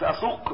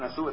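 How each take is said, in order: First: The consonant is a deep q sound. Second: The consonant is a glottal stop. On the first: It means to drive on and continue. The speaker calls it right. "بالقاف" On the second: It sounds like the word for worst. The speaker calls it wrong. "مش بالهمزة عشان أسوق دي تبقى وحشة"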